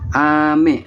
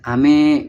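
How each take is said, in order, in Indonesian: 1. Suku kata terakhir diucapkan dengan nada rendah. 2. Suku kata terakhir diucapkan dengan nada tinggi. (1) "untuk hujan" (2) "me-nya itu lebih ke tinggi"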